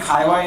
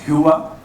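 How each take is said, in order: First: The name is said as two syllables, Hee-wa. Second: The name is said with a rounded vowel, Hoo-a. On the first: This is how it is commonly said in India. The speaker calls it wrong. "We call it Hiwa in India" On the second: This is the original pronunciation of the name. The speaker calls it right. "its actual pronunciation is Hua"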